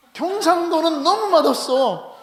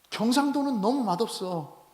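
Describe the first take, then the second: First: High, slow, drawn-out grumble about bland food; exaggerated complaint. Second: Said in the usual way. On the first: Preacher mocking Gyeongsang food to the congregation, higher and slow. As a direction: whine it like a food snob. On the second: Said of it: "그죠, 목사님?".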